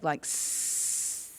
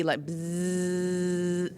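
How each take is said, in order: First: Long unvoiced hissing s; snake hiss. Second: Long voiced buzzing z; bee buzz. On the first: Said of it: "make a sound like a snake". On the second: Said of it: "make a z sound like a bee". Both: Shown as a demonstration.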